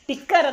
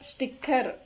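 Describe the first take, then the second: First: The word starts with a plain t sound. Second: The word starts with an s before the t. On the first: The speaker calls it wrong. "ಟಿಕ್ಕರ್ ಅಲ್ಲ" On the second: The speaker calls it right.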